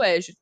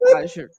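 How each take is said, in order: First: It is said halfway between Brazilian and American. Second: It is said with an American English accent. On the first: "fico no meio termo e falo Ejo" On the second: "se eu estivesse nos Estados Unidos eu falaria Azure"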